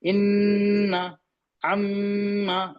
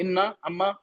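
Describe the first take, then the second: First: The nasal n and m sounds are held longer. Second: The nasal n and m sounds are short. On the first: The speaker calls it right. "उसको थोड़ा लंबा करते हैं" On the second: The speaker calls it wrong. "ऐसे नहीं पढ़ते"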